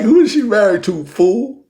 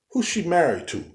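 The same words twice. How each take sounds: First: Higher, louder, pressing the question home; retold exasperated shout, asked again; loud exasperated repeat. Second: Said in the usual way. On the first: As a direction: repeat it louder like he missed the point. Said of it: "I mean, I like". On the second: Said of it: "I said".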